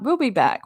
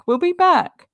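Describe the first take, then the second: First: Said in the usual way. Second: Higher and louder, a mock announcer-style sign-off; a jokey higher echo of the sign-off; playful put-on voice. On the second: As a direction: say it again up high in a put-on voice.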